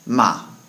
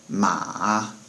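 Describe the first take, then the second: First: The pitch falls sharply and forcefully. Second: The pitch dips down and comes back up. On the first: It means to yell at or curse someone. "said somewhat forcefully with a down tone" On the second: It means horse. "it kind of has a little dip in it"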